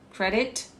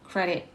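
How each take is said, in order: First: The t is clearly pronounced. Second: The t is replaced by a glottal stop. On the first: "le T" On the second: "on a encore un glottostop"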